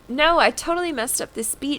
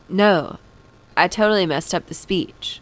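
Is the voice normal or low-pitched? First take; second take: normal; low-pitched. First: It is read in a normal voice. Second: It is read in a lower put-on voice.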